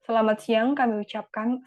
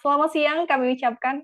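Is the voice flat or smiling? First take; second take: flat; smiling. First: It is said in a flat voice. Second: It is said with a smiling voice.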